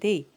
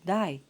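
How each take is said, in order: First: The vowel sounds like the vowel in 'day'. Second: The vowel sounds like the vowel in 'die'. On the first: "and not they" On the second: "the word they is pronounced die"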